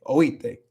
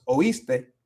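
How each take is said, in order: First: Oíste said as oíte, the S fully cut; dropped S. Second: Oíste said slowly with the S clearly sounded; slow, careful oíste, S in full. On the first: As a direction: drop the S in oíste: oí-te. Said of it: "Se corta la S completamente". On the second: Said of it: "No es oíste". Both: Shown as a demonstration.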